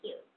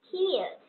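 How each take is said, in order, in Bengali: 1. প্রথম k ধ্বনিতে কোনো বাতাসের ঝলক নেই। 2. প্রথম k ধ্বনিতে জোরালো বাতাসের ঝলক থাকে। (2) "ক্ষয়ের মতো উচ্চারণ করব"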